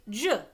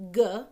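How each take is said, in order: First: "J" said as juh; soft G. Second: "G" said as guh; hard G. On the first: Teacher contrasting the two sounds of G, soft G. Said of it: "or it can make". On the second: Teacher contrasting the two sounds of G, hard G. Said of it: "It can make its normal sound". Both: Shown as a demonstration.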